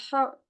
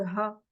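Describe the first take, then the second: First: "ha" with marked throat friction; Arabic pronounced ha. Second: "ha" with a light English h; less pronounced ha. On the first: Teacher comparing Arabic with English, heavily rasped "ha". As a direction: rasp the h of "ha" firmly. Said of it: "il est beaucoup plus prononcé". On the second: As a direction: keep the h of "ha" easy and unforced. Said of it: "il est beaucoup moins prononcé". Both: Shown as a demonstration.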